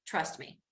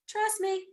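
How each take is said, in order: First: Said in the usual way. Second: Trust me. said much higher, insisting; higher emphatic. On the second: Shown as a demonstration. Teacher insisting to students, higher emphatic Trust me. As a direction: lift Trust me. high and press it.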